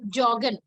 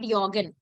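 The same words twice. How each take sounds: First: It is pronounced like the English word jogging. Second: It is pronounced with fully German-style sounds. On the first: The speaker calls it right. "we will keep it joggen" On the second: The speaker calls it wrong. "We will not make it joggen"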